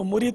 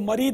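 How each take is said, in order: First: The first syllable has a 'u' vowel. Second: The first syllable has an 'a' vowel. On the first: It means a disciple. The speaker calls it right. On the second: It means a rebellious devil. The speaker calls it wrong.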